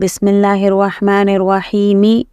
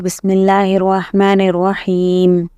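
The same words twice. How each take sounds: First: The final word ends with a short vowel. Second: The final word ends on the m consonant. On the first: The speaker calls it wrong. "नहीं" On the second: The speaker calls it right. "हम पढ़ रहे"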